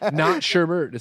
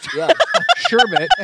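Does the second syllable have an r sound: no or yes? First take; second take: yes; no. First: The second syllable has an added r sound. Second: The second syllable has no r sound. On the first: The speaker calls it wrong. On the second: The speaker calls it right. "Sherbet, not sherbet"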